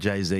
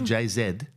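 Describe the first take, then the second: First: The letter Z is said the American way. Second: The letter Z is said the Australian way. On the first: "in America" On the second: "in Australia"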